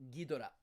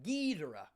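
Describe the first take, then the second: First: All syllables get even stress. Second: One syllable carries stronger stress than the others. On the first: This is how Japanese speakers say the name. "for them it's like ba ba ba Ghidorah" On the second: This is how English speakers say the name. "A lot of Americans we we we put the stress like Ghidorah"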